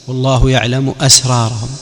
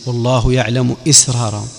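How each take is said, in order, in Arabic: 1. همزة الكلمة الثالثة تأخذ الحركة 'a'. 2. همزة الكلمة الثالثة تأخذ الحركة 'i'.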